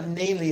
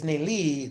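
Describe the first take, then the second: First: "Naley" with stress on "Nay"; first-syllable stress. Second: "Naley" with stress on "LEE"; second-syllable stress. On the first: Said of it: "if it's not Naley". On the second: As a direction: lean on the last syllable of "Naley". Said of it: "then capitalize the L". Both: Shown as a demonstration.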